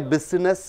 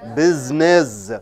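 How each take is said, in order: First: The middle consonant is a hissing s sound. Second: The middle consonant is a buzzing z sound. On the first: The speaker calls it wrong. "You don't say business" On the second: The speaker calls it right. "S is changed into Z"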